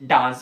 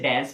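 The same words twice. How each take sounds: First: It is said with a British accent. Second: It is said with an American accent. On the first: "British डांस बोलते हैं" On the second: "American इसे डांस बोलते हैं"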